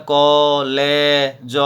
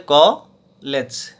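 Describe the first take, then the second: First: "ক, লে, জ" as three separate beats; over-split syllables. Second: "ক লেজ" in two beats, pause after ক; split into syllables. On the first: Teacher showing how nobody says it, "ক, লে, জ" in three pieces. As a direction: break it apart sound by sound: "ক", "লে", "জ". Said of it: "এরকম করে উচ্চারণ করি না". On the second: Teacher showing how the breath divides the word, "ক লেজ" split in two. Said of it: "নিঃশ্বাসকে ভাগ করে আমরা উচ্চারণ করছি". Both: Shown as a demonstration.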